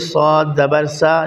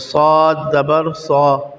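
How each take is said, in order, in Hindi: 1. आख़िरी अक्षर की आवाज़ पतली और हल्की है। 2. आख़िरी अक्षर की आवाज़ मोटी और भारी है। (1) "ऐसे नहीं कि सौद ज़बर सा नहीं कहेंगे" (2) "ये मोटी आवाज़ में जब आप पढ़ें तो उसका मोटाई का ख़याल करना है"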